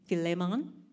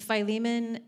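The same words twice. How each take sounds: First: It sounds like the steak dish. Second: It does not sound like the steak dish. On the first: This is the official pronunciation. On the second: This is the familiar pronunciation.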